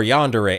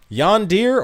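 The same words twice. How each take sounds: First: "yandere" in three syllables, yon-duh-ray; variant pronunciation. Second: "yondir" in two syllables, yon-deer; variant pronunciation. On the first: Streamer weighing two pronunciations for chat, yon-duh-ray variant. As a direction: end "yandere" on a clear ray. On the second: Streamer weighing two pronunciations for chat, yon-deer variant. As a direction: end "yondir" like the word deer. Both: Shown as a demonstration. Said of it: "I've heard it pronounced yandere and yondir".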